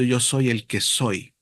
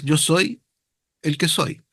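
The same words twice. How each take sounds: First: "Yo soy el que soy" said slowly, falling on the last soy; slow and solemn, landing on "soy"; solemn slow quote. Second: Said in the usual way. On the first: Shown as a demonstration. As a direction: weigh each word of "Yo soy el que soy" gravely. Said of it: "se revela diciendo". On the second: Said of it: "Tú le dirás".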